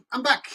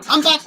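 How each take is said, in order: First: High but at normal level; Shambini impression. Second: High, loud, bright announcement; impression of Shambini. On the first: Streamer settling back in front of the chat, high but easy. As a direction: say it again, relaxed. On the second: Streamer returning to the camera with a high, loud call. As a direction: pop back in with a shout. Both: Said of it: "That's my impression of Ciambini".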